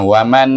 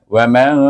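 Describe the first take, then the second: First: The n is pronounced clearly and fully. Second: The n is hidden with a nasal hum. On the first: The speaker calls it wrong. "bukan waman ... Itu dah izhar nun" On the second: The speaker calls it right. "Jadi bunyinya wa man kana"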